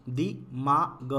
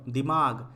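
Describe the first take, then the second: First: दिमाग split slowly as दि… मा… ग; syllable by syllable. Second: Said in the usual way. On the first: Shown as a demonstration. Teacher reads the word for learners, broken up. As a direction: sound out दिमाग in pieces. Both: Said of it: "पहले पढ़ लेते हैं".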